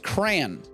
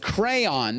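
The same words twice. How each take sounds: First: The word is said as one syllable. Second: The word is said as two syllables. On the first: The speaker calls it wrong. "How would that be pronounced crayon?" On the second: The speaker calls it right. "Those are two syllables"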